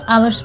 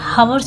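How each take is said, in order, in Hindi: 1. शब्द की शुरुआत सीधे स्वर ध्वनि से होती है। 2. शब्द की शुरुआत साफ़ सुनाई देने वाली ह ध्वनि से होती है। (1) "इसको आवर्स पढ़ते हैं। आवर्स में एस साइलेंट है।" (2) "इसको नहीं पढ़ते"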